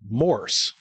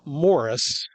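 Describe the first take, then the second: First: The word is said with one syllable. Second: The word is said with two syllables. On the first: The speaker calls it right. "It's one word, Morse" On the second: The speaker calls it wrong. "I was mispronouncing it. It's not Morris"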